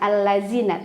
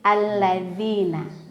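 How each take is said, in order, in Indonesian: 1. Huruf tengahnya adalah bunyi z yang bergetar. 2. Huruf tengahnya adalah 'th' seperti di 'this'. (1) "bukan allazina" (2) "tapi alladzina, ya, lidahnya digigit"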